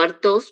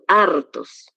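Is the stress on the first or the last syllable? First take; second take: last; first. First: The stress is on the last syllable. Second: The stress is on the first syllable. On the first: The speaker calls it wrong. "no hartos, porque mira que aquí no está el acento en la Omicron" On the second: The speaker calls it right. "sino hartos"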